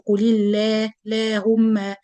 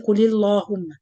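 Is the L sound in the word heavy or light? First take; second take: light; heavy. First: The L sound is thin and light. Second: The L sound is thick and heavy. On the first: The speaker calls it right. "in this case we pronounce the lam light. We say" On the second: The speaker calls it wrong. "We don't say"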